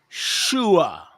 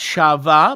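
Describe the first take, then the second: First: The middle letter is said with a U sound. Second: The middle letter is said with a V sound. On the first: The speaker calls it right. "but shua" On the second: The speaker calls it wrong. "not shava"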